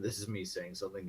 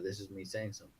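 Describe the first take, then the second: First: It is spoken in an altered, put-on voice. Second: It is spoken in a natural, ordinary voice. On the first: "in this voice"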